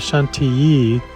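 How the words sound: The word is pronounced the French way. The speaker calls it right. "pronouncing the word Chantilly properly in French, which would be Chantilly"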